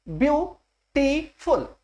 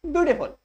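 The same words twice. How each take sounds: First: beautiful slowly broken into view, टी, फुल; syllable by syllable. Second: Said in the usual way. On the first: Shown as a demonstration. (Beautiful को धीरे-धीरे तीन हिस्सों में, ब्यू-टी-फुल) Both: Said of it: "तीन syllable हो गए".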